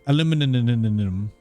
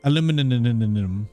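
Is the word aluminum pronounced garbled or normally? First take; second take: garbled; garbled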